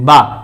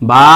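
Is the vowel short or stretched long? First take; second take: short; stretched. First: The vowel is short and said quickly. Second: The vowel is stretched for one alif length. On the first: "বা হরকতের কায়দা" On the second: "বা মদ হরফের কায়দা"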